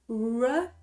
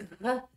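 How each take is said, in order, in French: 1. Le R est doux, sans grattement dans la gorge. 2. Le R gratte au fond de la gorge. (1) "Alors que le R en anglais, re, c'est un peu différent" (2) "En français, on fait R. C'est R, ça, ça gratte là"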